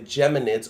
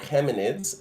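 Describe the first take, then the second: First: The word begins with a J sound. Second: The word begins with a throaty H sound. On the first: "like in English" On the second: "or in Spanish"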